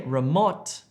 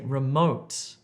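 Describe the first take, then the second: First: The o is a short vowel, as in hop. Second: The o is a long gliding oh vowel. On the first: The speaker calls it wrong. "Don't say remote" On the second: The speaker calls it right. "if you're trying to say remote"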